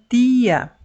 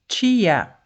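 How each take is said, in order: First: The T is a plain, pure t sound. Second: The T is hissed, like a ch sound. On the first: "você tem que falar o T puro, como quem diz assim" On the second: "em alguns sotaques da nossa língua, nós falamos o som T"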